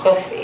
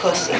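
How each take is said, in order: First: Limp, puffed-cheek voice with a lisped s. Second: Limp, puffed-cheek voice with a clear s. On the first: "Give it a lisp" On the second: "puff out your cheeks, ... have no energy in your mouth"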